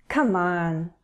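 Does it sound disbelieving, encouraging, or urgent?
disbelieving. It sounds doubtful and disbelieving.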